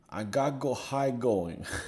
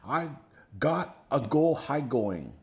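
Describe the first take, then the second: First: It is read in the speaker's ordinary accent. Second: It is said in an imitated Chinese accent.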